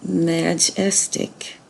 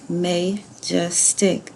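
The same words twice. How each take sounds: First: The first vowel is a short A sound. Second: The first vowel is a long A sound. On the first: "change that to close ... That doesn't sound right" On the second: "that was open ... No, that's not right"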